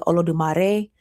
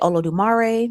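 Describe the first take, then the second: First: The name is said with a Spanish-style accent. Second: The name is said with a country accent. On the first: This is how people in Santeria say it. "in Santeria they may say Olodumare just because, you know, Spanish" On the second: This is how the speaker says it. "I say Olodumare because, you know, country"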